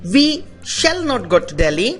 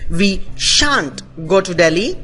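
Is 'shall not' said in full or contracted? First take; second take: full; contracted. First: Shall not is said as two full words. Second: Shall not is squeezed into one syllable, shan't. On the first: "शैल नॉट" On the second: "शैल नॉट की contracted form को हम शांट बोलते हैं"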